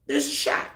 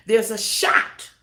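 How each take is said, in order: First: Breathy whispered repeat. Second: Slow and louder, leaning on the words; emphatic. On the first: Pastor hushing the same line, whispered repeat. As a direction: drop to a hush for weight. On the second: Pastor urging listeners, slow emphatic declaration. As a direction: press the point home, slowly. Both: Acted.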